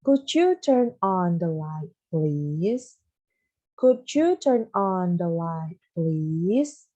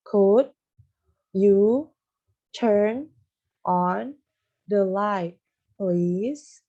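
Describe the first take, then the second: First: Could you turn on the light read smoothly and slowly; slow, smooth full-sentence model. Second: Could and you punched loud, each word split off with pauses; loud, separated words for beginners. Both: Shown as a demonstration. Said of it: "ini Miss kasih tahu ya".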